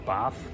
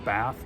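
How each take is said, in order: First: The word is said in a Boston accent. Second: The word is said in a standard accent. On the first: "we call it a bath" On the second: "we don't call it a bath"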